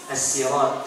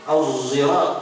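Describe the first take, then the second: First: The word begins with a plain, light s sound. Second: The word begins with a voiced z sound. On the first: "pakai huruf sin" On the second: "pakai zai"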